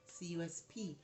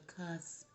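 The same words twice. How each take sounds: First: Cusp spelled as C U S P, letter by letter; C U S P as separate letters. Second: Said in the usual way. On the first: Shown as a demonstration.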